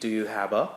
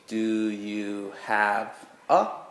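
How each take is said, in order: First: It is quick, with 'have a' run together. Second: It is careful, with 'have' and 'a' kept apart. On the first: The speaker calls it wrong. "I just kind of said it in my natural speed" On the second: The speaker calls it right. "you emphasize when you're teaching"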